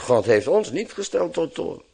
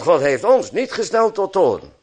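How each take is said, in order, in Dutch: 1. Het wordt vlak voorgelezen, op een zakelijke manier. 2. Het wordt met sterke, bewuste nadruk voorgelezen. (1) "gewoon zo laconiek zoals het er staat lezen" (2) "ik deed mijn best om de klemtoon meteen zo goed mogelijk te lezen"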